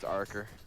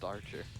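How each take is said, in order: First: The middle consonant is a hard k sound. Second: The middle consonant is a ch sound. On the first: The speaker calls it right. "It's Arker" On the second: The speaker calls it wrong. "It was never pronounced Archer"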